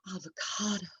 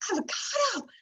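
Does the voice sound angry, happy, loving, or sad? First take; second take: loving; happy. First: The word is said in a loving tone. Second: The word is said in a happy tone. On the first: "we love the avocado" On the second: "as if we're so happy"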